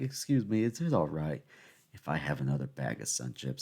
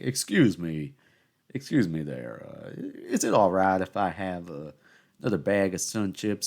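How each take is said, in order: First: It has a lighter Southern accent. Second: It has a thick Southern accent.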